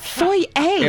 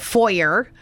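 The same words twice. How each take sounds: First: Foyer is said with a French-style pronunciation. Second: Foyer is said with an English-style pronunciation. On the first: The speaker calls it right. "ça c'est une foyer en français" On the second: The speaker calls it wrong. "they're like, here's the foyer"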